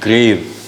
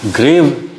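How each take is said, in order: First: "ग्रेव" with the final व barely sounded; natural soft V. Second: "ग्रेव" with the final व fully sounded; overpronounced V. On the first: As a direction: end "ग्रेव" on a light, nearly silent व. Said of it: "हम कैसे बोलते हैं?". ("ग्रेव" का आख़िरी व हल्का, लगभग silent) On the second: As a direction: push out the व at the end of "ग्रेव". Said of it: "ऐसा हम नहीं बोलते हैं". ("ग्रेव" का आख़िरी व उभारकर, गलत ढंग से) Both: Shown as a demonstration.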